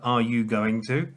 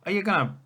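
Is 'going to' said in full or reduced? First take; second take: full; reduced. First: Going to is said in full, unreduced. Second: Going to is reduced to gonna.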